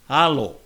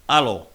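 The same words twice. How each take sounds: First: The vowel is long with no break. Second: A glottal stop breaks the vowel sound. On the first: The speaker calls it right. "it's pronounced alo, the long vowel sound" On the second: The speaker calls it wrong. "not alo with a glottal break, a glottal plosive"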